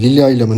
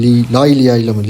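First: "Lilia" said cleanly as LI-li-a with a falling tune; corrected name. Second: "Lailia" said as lai-LI-a, stumbling into the wrong name; fumbled name. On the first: Streamer corrects the teammate's name, clear corrected pronunciation. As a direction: settle on the right name "Lilia". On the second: Streamer fumbles the teammate's name, stumbling mispronunciation. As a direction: trip over the start, then land on "Lailia". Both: Real, not acted. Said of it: "İsmini söyleyemedim".

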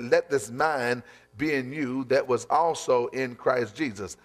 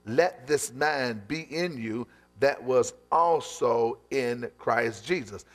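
First: Said in the usual way. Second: Slow emphatic reading. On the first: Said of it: "as the Philippians two and five said". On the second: Shown as a demonstration. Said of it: "repeated slowly".

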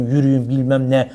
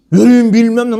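First: Said in the usual way. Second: Louder, higher mock yell of "Yürüyün"; imitated yell. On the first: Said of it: "bas bas bağırıyorsun". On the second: Mimicking the shopkeeper yelling at children, mock shout. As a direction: bark "Yürüyün" like a shopkeeper shooing kids. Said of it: "Nasıl bağırıyor çocuklara?".

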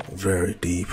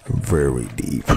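First: Said in the usual way. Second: Much lower, slow, put-on deep "Very deep"; mock deep voice. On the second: Shown as a demonstration. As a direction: drop the voice way down and drag it. Playing on the word deep.

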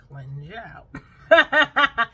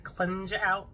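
First: Very slow, loud, laughing through it; drawn-out laughing. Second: Said in the usual way. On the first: Shown as a demonstration. Vlogger joking about detox tea cleansing you out, laughing. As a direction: stretch it out and crack up. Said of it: "drawn out, laughing repeat". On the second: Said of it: "repeated as a joke".

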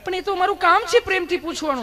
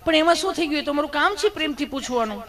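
First: Much higher, louder sugary nurse voice; insistent sweet nurse. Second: Higher, sugary nurse voice; sweet nurse. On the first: Nurse repeating her line to Gabho, higher and louder. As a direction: insist sweetly, pushing harder. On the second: Nurse answering blushing Gabho, higher sugary voice. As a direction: innocently explain her job, sweetly. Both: Retold or imitated. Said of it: "nurse બેને".

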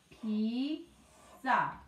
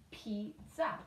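First: "Pizza" slowly split into Piz and za; syllable by syllable. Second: Said in the usual way. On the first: Shown as a demonstration. Teacher reviewing syllables with the class, "Pizza" beat by beat. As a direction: stretch "Pizza" into two separate beats. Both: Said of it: "Let's do our syllabes".

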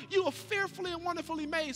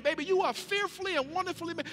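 First: Reassuring declaration. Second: Put-on tender declaration to baby. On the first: Acted. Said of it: "you remind people, Sweetheart". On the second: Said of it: "That's what we be declaring".

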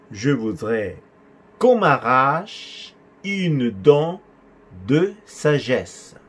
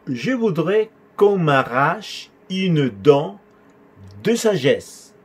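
First: Broken into chunks, syllables drawn out; very slow repeat. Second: Slow but connected, higher-pitched teaching delivery; measured model sentence. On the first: Teacher repeating a patient's request, very slow and segmented. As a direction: dictate it chunk by chunk for learners. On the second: Teacher showing a patient's request, measured model sentence. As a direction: model it in one steady, measured flow. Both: Shown as a demonstration.

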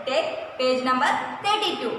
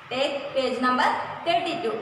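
No difference in how they are said.

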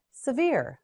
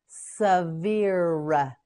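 First: Said in the usual way. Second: "Severe" stretched as suh, veer; slow modelling. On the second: Shown as a demonstration. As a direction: draw out both syllables of "Severe". Teacher models word slowly.

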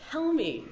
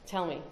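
First: High, loud, demanding "Tell me"; rhetorical challenge. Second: Said in the usual way. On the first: Real, not acted. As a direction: dare the audience to answer. Challenging the audience.

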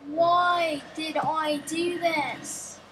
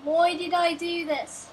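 First: Very slow, stretched-out wail of regret; drawn-out lament. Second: Said in the usual way. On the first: Pretend. Player regretting a really bad idea, drawn-out lament. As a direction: drag out each word in mock despair.

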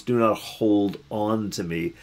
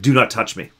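First: Measured, stressing not; slow, deliberate correction. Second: Said in the usual way. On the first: Shown as a demonstration. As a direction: Do not hold on to me, slow, leaning on not. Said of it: "that's not really what it is". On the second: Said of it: "said things like".

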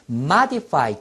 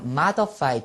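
First: Modify with a short "i" in the middle, MA-di-fai; pronunciation variant. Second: Modify with a schwa in the middle, MA-duh-fai; pronunciation variant. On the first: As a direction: say modify as "MAH-dih-fai". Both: Shown as a demonstration. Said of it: "두 가지 발음".

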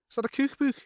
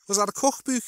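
First: High Scouse "cookbook" with long oo in both halves; "cookbook" in high Scouse, long vowels. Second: High Scouse "cookbook", short first vowel, long second; "cookbook" in Scouse, only "book" gets the moon vowel; Scouse mixed vowels. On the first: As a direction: say "cookbook" like "kook-book" with oo as in moon. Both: Shown as a demonstration. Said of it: "sometimes you get people who do both".

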